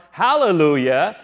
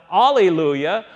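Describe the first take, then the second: First: "hallelujah" with a clear H, rising at the end; Hebrew form. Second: "alleluia" begun on "ah" with no H; Greek form. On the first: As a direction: sound the H in "hallelujah" and lift the ending. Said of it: "say it in the Hebrew form". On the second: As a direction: say "alleluia" leaving the H off. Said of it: "say it in the Greek form". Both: Shown as a demonstration.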